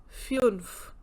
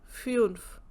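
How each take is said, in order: No difference in how they are said.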